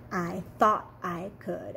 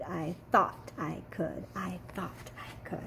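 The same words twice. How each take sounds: First: Said in the usual way. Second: Fading to an unvoiced whisper; teacher fading the kids' chant to a whisper. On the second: Shown as a demonstration. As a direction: let it die away to a whisper. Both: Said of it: "Can you say that with me?".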